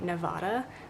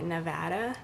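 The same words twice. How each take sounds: First: It is said the East Coast American way. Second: It is said the Western American way. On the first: The speaker calls it wrong. "East Coast Americans say Nevada" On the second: The speaker calls it right. "out here we say Nevada"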